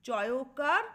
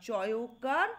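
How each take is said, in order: No difference in how they are said.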